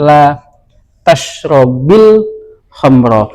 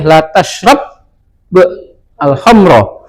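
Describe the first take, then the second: First: An i vowel links the verb to the next word. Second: The verb ends without a vowel before al. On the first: "sukun ini harus salah satu mengalah menjadi kasroh" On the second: "dalam bahasa pengucapan pengucapan kita boleh"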